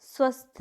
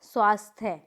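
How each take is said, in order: First: स्वस्थ with short a, ending "thya"; incorrect pronunciation. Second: स्वास्थ्य with long aa; correct pronunciation. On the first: Teacher showing a mistake, स्वस्थ as short-vowelled "swasthye". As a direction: say स्वस्थ as swas-thye. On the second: Teacher correcting the class, स्वास्थ्य with long first vowel. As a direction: say स्वास्थ्य as swaas-thye. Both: Shown as a demonstration. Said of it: "नहीं".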